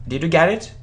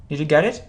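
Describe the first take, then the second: No difference in how they are said.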